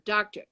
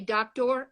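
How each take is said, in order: First: The final 'or' is quick and reduced. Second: The final 'or' is fully and slowly pronounced. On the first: "I say ... Nobody slowed down to say or at the end" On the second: "I don't say doctor"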